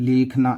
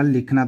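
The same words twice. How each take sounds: First: The first vowel is drawn out long. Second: The first vowel is kept short. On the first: The speaker calls it wrong. "ऐसे तो नहीं बोला" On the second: The speaker calls it right. "उसने बोला लिखना"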